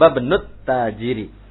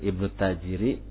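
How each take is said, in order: First: The first vowel is dropped and linked to zahaba. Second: The word starts with a pronounced i vowel. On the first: "Idealnya jadi cara bacanya tadi" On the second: "Pelan-pelan saja gitu ya"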